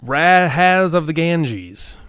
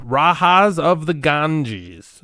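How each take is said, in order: First: Rajas said as RAH-has with a flat a; deliberate pronunciation. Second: Rajas with an h sound, RAH-has; drawn-out Rajas of the Ganges; slow careful pronunciation. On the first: Saying the title again, slowly, for the co-host. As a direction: stretch out Rajas of the Ganges. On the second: Sounding out the game title carefully and slowly. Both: Shown as a demonstration. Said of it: "I always pronounce it".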